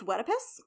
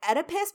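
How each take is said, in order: First: Wedipus with a W in front, rising; variant pronunciation. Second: Oedipus said "ED-ih-pus"; usual pronunciation. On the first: Teacher reporting a variant, Wedipus as WED-ih-pus. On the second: Teacher naming the standard form, Oedipus as ED-ih-pus. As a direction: say "Oedipus" with a plain E at the start. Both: Shown as a demonstration. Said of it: "Oedipus pronounced Wedipus".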